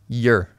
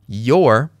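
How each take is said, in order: First: The word has a reduced, weak vowel. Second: The word has its full vowel.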